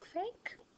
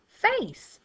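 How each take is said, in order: First: The middle consonant is a k sound. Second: The middle consonant is an s sound. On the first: The speaker calls it wrong. "It doesn't really sound" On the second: The speaker calls it right. "that sounds right. So in this word, it is making the s phoneme"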